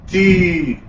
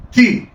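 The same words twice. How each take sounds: First: تي with a long, held ee; wrongly lengthened vowel. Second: تي with a brief, quick ee; short quick vowel. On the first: Teacher showing the mistake to avoid, تي drawn out long. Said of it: "ما مدش". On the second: Teacher correcting the stretched version, تي said short and quick. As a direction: say تي short, without holding the vowel. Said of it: "حركة قصيرة سريعة". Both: Shown as a demonstration.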